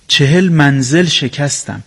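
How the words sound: The stress falls on the word منزل. The speaker calls it wrong. "شما منزل رو روش تکیه گذاشتین"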